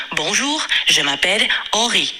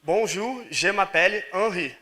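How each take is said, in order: First: Henri said the French way, Bonjour rising; French pronunciation. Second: Repeating Henri the French way, softer and slow; careful French imitation. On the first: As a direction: model the French Henri clearly. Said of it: "você pode se apresentar como". (pronúncia francesa de Henri) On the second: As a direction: copy the model's Henri carefully. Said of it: "Tá certa a minha pronúncia?". (imitando a pronúncia francesa com cuidado) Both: Shown as a demonstration.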